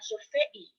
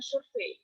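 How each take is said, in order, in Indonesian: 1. Huruf e dan i di akhir merupakan dua suku kata terpisah. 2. Huruf e dan i di akhir meluncur sebagai satu bunyi. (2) "kita mengatakan"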